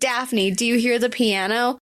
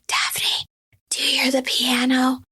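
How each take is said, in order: First: It is said in a normal voice. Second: It is said in a whisper.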